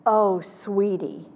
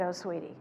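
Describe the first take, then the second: First: "Oh, sweetie" slow, drawn out, sorry; empathetic "oh sweetie". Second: "Oh, sweetie" softer, quick and gentle; a quiet, sorry sigh; empathetic "oh sweetie". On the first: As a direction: say it slowly, full of sympathy. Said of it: "and I said". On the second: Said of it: "when I said". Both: Retold or imitated.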